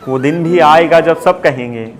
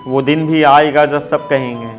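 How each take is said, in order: Both takes have the same delivery.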